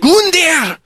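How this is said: It is said in a put-on Germanic woman's voice.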